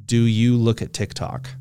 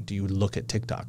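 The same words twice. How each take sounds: First: Said in the usual way. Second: Put-on quiet, low old-person take. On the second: Shown as a demonstration. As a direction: ask it like a frail old man. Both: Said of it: "I said that like an old person".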